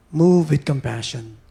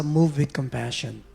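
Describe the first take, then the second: First: "Move" hit louder, then slow and deliberate; emphatic repeat. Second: Said in the usual way. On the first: Shown as a demonstration. Preacher repeating a verse to the congregation, "Move" stressed. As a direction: lean hard on "Move" and draw the phrase out.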